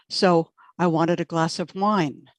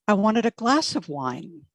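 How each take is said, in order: First: The word wine carries the main stress. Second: The word wine does not carry the main stress.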